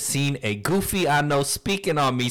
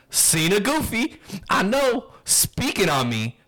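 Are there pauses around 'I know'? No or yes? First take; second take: No; Yes. First: It runs on without pauses around 'I know'. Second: It has pauses before and after 'I know'. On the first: The speaker calls it wrong. "I didn't put in the commas that time" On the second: The speaker calls it right. "now I'm going to try to read it with if there were commas"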